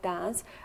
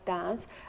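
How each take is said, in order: First: The vowel is a short a sound. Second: The vowel is a short a sound.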